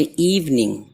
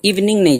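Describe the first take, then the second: First: इवनिंग with a held ee at the start; long first vowel. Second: इवनिंग with a quick short i; wrongly hurried first vowel. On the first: Teacher correcting it, इवनिंग unhurried with long ee. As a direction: stretch the first vowel of इवनिंग, "eev-ning". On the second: Teacher showing what to avoid, इवनिंग said too quickly. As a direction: rush the start of इवनिंग, as a mistake. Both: Shown as a demonstration. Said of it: "जल्दी नहीं पढ़ना".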